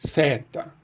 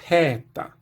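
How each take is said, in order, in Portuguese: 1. Começa com um som de th, como em think. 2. Começa com um t seguido de um sopro de ar. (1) "pronunciar esse teta como theta" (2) "pronunciado como se fosse o som T mais o som H aspirado na sequência"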